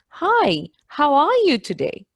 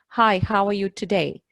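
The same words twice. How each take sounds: First: It is said with a distinctive, marked melody. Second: It is said with plain, ordinary intonation.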